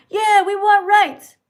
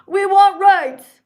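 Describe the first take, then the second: First: Loud high slow chant of a protester; mock protester. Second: Loud high slow protester chant; mock protester. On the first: Mocking pride marchers demanding rights, loud. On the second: Mocking pride marchers eating hot dogs, loud. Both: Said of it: "people who are like".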